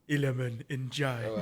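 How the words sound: The name is said in a deep voice.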